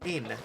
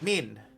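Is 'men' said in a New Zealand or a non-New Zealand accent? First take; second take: New Zealand; New Zealand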